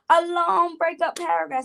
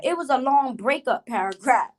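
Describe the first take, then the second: First: A long breakup paragraph repeated much higher, with weight on long and breakup; outraged high repeat of A long breakup paragraph; emphatic repeat. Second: Said in the usual way. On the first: Shown as a demonstration. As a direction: say A long breakup paragraph again, pitched way up in disbelief.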